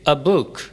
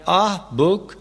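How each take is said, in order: First: A light, short 'uh' joined to the noun. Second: The article is said as a long 'ah'. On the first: The speaker calls it right. "आ को अलिफ की हल्की सी आवाज़ देते हैं" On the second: The speaker calls it wrong. "कहना दुरुस्त नहीं"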